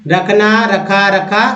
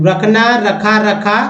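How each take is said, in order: No difference in how they are said.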